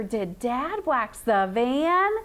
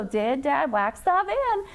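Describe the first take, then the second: First: "Did Dad wax the van" drawn out and connected, rising at "van"; smoother question reading. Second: "Did Dad wax the van" word by word; choppy reading. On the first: Teacher models it for Michaela, smooth with rising end. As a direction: glide slowly through it and lift "van" as a question. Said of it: "Just make it smoother". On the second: Teacher shows Michaela what she need not do, choppy. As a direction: read each word separately, not joined up. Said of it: "You don't have to go". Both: Shown as a demonstration.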